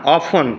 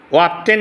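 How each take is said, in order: First: অফন with a silent T; correct pronunciation. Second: অফটেন with the T sounded; wrong pronunciation. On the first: Teacher models the word for students, correct pronunciation. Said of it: "টির উচ্চারণ নাই". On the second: Teacher shows students what to avoid, wrong pronunciation. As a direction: say অফটেন as "of-ten". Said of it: "অফটেন না". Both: Shown as a demonstration.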